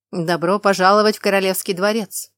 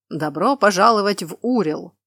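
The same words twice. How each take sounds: First: Loud welcome rising at the end; loud herald welcome. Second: Loud welcome falling at the end; loud herald welcome. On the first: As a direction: proclaim it with a lift. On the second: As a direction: proclaim it and close it down. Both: Acted.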